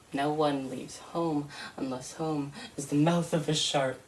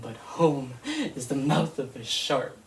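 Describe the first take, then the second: First: Measured, solemn poem reading; poem recital. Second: Laughing through the words, stress on is; bitter laugh. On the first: Poet reciting to an audience, grave and measured. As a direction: lay the line down gravely for listeners. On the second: Poet echoing her opening line with a rueful laugh. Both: Acted.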